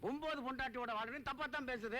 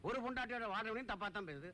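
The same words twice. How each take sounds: First: ஒன்பது punched as the topping contrast; stress on ஒன்பது. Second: ஒரு set up as the first contrast; stress on ஒரு. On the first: Friend capping his argument about village gossip, stress on ஒன்பது. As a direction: hit ஒன்பது to cap the comparison. Contrasts nine wives with one. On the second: Friend arguing that gossip spares nobody, stress on ஒரு. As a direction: lean on ஒரு, then let the line fall. Contrasts one wife with nine. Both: Acted.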